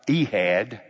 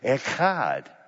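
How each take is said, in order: First: The middle h is soft and breathy. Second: The middle h is harsh and throaty. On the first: The speaker calls it wrong. "not Ehad. Don't pronounce it that way" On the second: The speaker calls it right. "It's a hard H, which means people need to stand a distance away from you when you say it"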